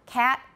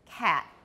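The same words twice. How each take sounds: First: The final t is plain, without creak. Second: The final t is creaky with a glottal stop. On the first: "The first one, I did not" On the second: "I got creaky and had a glottal stop"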